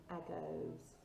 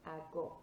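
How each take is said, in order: First: "agos" with an English "goes" ending; wrong anglicised O. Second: "Ago" ending in a short Spanish O; correct O sound. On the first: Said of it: "I don't want to hear any". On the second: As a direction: say "Ago" with a crisp, short final O. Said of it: "got that O sound at the end". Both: Shown as a demonstration.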